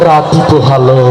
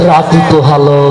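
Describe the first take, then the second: No difference in how they are said.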